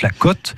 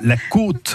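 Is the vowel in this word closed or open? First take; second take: open; closed. First: The vowel is more open. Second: The vowel is more closed. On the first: It means a financial estimate of value. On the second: It means a slope, coast or rib.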